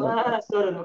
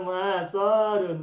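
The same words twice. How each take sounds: First: The middle vowel is said short. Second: The middle vowel is said long. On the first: The speaker calls it right. "soalnya pendek" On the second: The speaker calls it wrong.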